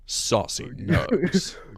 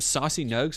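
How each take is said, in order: First: It is said in a gravelly put-on hero voice. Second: It is said in a natural speaking voice. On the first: "Should I say it like Batman?" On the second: "I hated the way that you said that"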